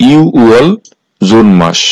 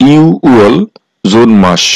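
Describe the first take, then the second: No difference in how they are said.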